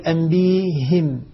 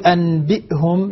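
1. فيه صوت ياء قبل "him". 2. فيه همزة قبل "hum". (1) "لما بيبدلها يقول أنبيهم" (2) "لما يقول أنبئهم"

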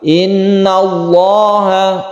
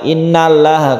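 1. Bunyi 'l' di Allah terdengar tebal dan berat. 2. Bunyi 'l' di Allah terdengar tipis dan ringan. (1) "dibaca tafkhim atau tebal" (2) "bukan innallaha"

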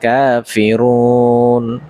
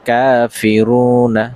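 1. শব্দটি n-এর উপর শেষ হয়, আর তার আগে একটি টানা স্বর থাকে। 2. শব্দটি n-এর পরে একটি হ্রস্ব স্বরধ্বনি দিয়ে শেষ হয়।

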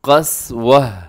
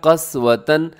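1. शब्द हल्की h की आवाज़ से खत्म होता है। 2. शब्द t की आवाज़ और -an से खत्म होता है। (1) "तो कैसे वक़फ़ होगा?" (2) "यहाँ लिखा हुआ है क़स्वतन"

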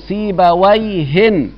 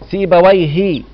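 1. الاسم ينتهي بصوت n زائد. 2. الاسم ينتهي بدون صوت n زائد. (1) "التنوين ده يبقى يصير اسم نكرة" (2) "ومن غير تنوين يصير معرفة"

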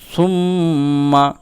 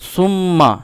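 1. নাকের আওয়াজ নাক দিয়ে কিছুক্ষণ ধরে রাখা হয়। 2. নাকের আওয়াজ ছোট, টানা নয়। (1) "এইভাবে একটু গুন্না করে পড়তে হবে" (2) "এরকম পড়বে না"

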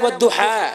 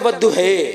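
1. शब्द का अंत खुले 'a' स्वर से होता है। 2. शब्द का अंत 'e' स्वर से होता है। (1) "एक होता ना वद्दुहा" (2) "एक होता वद्दुहे"

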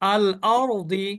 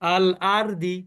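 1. r টি ভারী, স্বরধ্বনিটি গাঢ় করা। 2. r টি হালকা ও পাতলা, গাঢ় করা নয়।

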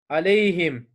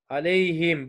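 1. Son hecede i ünlüsü var. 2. Son hecede i ünlüsü var.

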